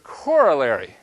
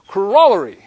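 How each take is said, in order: First: The stress is on the first syllable. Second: The stress is on the second syllable. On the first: This is the American way of saying it. The speaker calls it wrong. "if we were teaching this class in the U S, we would pronounce this word corollary" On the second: This is the English way of saying it. The speaker calls it right. "we would be pronouncing the word correctly ... it's not on the core, it's on the roll"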